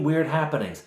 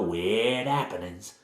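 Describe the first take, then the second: First: Said in the usual way. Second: Slow Cockney, dropping the H in "happenings"; bad Cockney accent. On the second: Village woman warning strangers about the house, in bad Cockney. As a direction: draw out "weird happenings" in hammy Cockney. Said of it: "she has a sort of bad Cockney accent".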